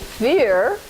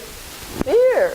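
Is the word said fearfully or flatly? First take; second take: flatly; fearfully. First: The word is said in a plain, neutral voice. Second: The word is said dramatically, sounding afraid. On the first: "when we say fear" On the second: "we should say fear"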